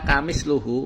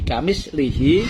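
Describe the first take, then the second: First: The word ends in luhu with u vowels. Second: The word ends in lihi with i vowels. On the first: "menggunakan domah lamnya, wa domil hak, dan domah haknya" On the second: "kasroh lamnya dan haknya"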